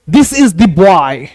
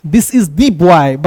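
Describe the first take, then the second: First: Put-on "This is the boy" drawn out very slowly; very slow example. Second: "the" said as दी and stressed, very slowly. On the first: Teacher reading the example very slowly. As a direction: read it slowly, word by word. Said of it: "जैसे जोर देंगे". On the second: Teacher stressing the as दी for students. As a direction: lean on "the" as दी. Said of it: "मतलब दी". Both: Shown as a demonstration.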